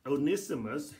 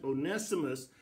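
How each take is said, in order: First: Onesimus said as oh-NISS-ih-mus; short i in the NISS of Onesimus; first pronunciation. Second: Onesimus said as oh-NESS-ih-mus; alternate pronunciation. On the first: Preacher repeating variant names, Onesimus as oh-NISS-ih-mus. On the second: Preacher repeating variant names, Onesimus as oh-NESS-ih-mus. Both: Shown as a demonstration. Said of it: "however you want to pronounce it".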